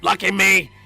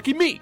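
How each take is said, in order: First: It is said in a robotic Dalek voice. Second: It is said in his normal voice.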